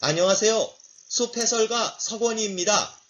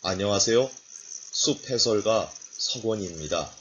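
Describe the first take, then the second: First: Pitched up high, a bit shrill-sounding. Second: Pitched a little lower. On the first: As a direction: say the greeting in a high voice. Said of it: "높은 톤으로 한번 해볼까요". (높은 톤으로 인사) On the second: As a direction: drop the greeting into a low register. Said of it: "저음으로 톤을 낮춰서". (낮은 톤으로 인사) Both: Shown as a demonstration.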